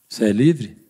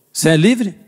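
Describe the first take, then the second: First: "Você é livre?" dropped lower, serious fall on "livre"; probing, lowered "Você é livre?"; grave questioning tone. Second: Said in the usual way. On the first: Shown as a demonstration. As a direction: ask "Você é livre?" low and searching. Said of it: "só por causa da minha entonação você já ficou mais quieto". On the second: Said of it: "só por causa da minha entonação".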